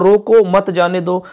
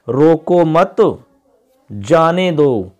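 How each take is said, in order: First: There is a pause right after 'roko'. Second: There is a pause right after 'mat'. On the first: Stop him and do not let him go. "रो को फिर comma मत जाने दो" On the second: Do not stop him, let him go. "अब इसी वाक्य को हम इस प्रकार बोलते हैं"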